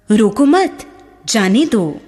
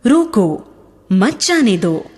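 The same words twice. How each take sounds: First: रोको मत as one rising phrase, pause, then जाने दो; pause after मत. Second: रोको alone as a falling command, pause, then मत जाने दो; pause after रोको. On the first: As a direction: break after मत, leaving जाने दो on its own. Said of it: "जाने देने का भाव व्यक्त हो रहा है". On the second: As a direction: stop on रोको, then run मत जाने दो together. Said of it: "रोकने का भाव व्यक्त हो रहा है". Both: Shown as a demonstration.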